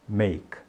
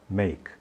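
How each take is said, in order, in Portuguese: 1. Termina de repente na consoante K. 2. Termina de repente na consoante K.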